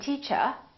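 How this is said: The final R is dropped. "In British English, people generally don't pronounce the final R"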